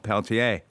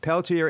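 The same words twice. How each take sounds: First: The name is said with its original pronunciation. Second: The name is said with an anglicized pronunciation. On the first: "the original Peltier" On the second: "an anglicized pronunciation"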